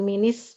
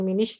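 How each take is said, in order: First: Min links with an i vowel and s sound. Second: Min links with an i vowel and sh sound. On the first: "bukan minis" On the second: "bukan minish"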